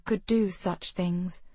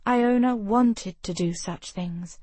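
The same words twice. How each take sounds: First: Slow, with "do" leaned on; stress on do. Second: Slow, with "wanted" leaned on; stress on wanted. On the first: Narrator reading Ravenna's envy, weight on "do". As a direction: draw out "do" as the point of the sentence. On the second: Narrator on every castle girl's longing, weight on "wanted". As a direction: press "wanted" hard, then ease off. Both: A narrator's reading.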